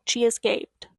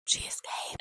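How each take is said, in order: First: Said in the usual way. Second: Hushed, suspenseful whisper; breathless storyteller whisper; dramatic whisper. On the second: Real, not acted. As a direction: whisper it like a plot twist.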